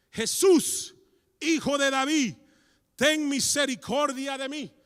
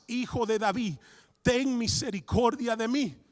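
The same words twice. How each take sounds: First: High desperate cry for mercy; shouting. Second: Loud slow plea; shouting. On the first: Blind Bartimeo shouting to Jesus, loud high cry. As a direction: cry out Jesús with all your voice. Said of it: "comenzó a gritar". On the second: Bartimeo shouting over the crowd, loud slow plea. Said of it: "él gritaba mucho más". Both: Acted.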